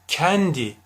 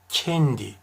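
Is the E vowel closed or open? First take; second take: open; closed. First: The E vowel is pronounced open. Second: The E vowel is pronounced closed. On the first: The speaker calls it wrong. "Kendi değil" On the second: The speaker calls it right. "E harfleri kapalı telaffuz edilir"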